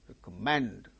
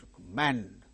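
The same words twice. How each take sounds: No difference in how they are said.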